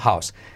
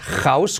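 First: It starts with a soft, breathy h sound. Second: It starts with a harsh, scraping throat sound. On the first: The speaker calls it right. "sino house" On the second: The speaker calls it wrong. "no es house con J"

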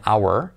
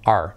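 First: It is said with two syllables, like 'hour'. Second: It is said in one syllable, like the letter R. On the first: "99% de los nativos nunca dicen our" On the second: "sino our. Como la letra R"

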